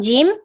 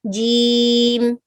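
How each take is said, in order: First: The vowel is short and clipped. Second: The vowel is drawn out longer. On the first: The speaker calls it wrong. "Instead of saying jim" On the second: The speaker calls it right. "So you prolong the um this these letters a little bit"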